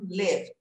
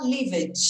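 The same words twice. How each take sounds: First: "lived" as one syllable with a clean light d; correct -ed ending. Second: "lived" in two syllables, ending in "dj"; Brazilianized ending. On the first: Shown as a demonstration. Teacher modelling the easier result, clean final D. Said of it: "mais fácil pra você falar". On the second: Retold or imitated. Teacher imitating learners' tendency, palatalized -ed mistake. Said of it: "vai ter a tendência de falar".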